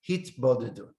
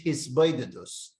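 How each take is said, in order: First: It is said with t sounds, non-Ashkenazic. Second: It is said with s sounds, Ashkenazic.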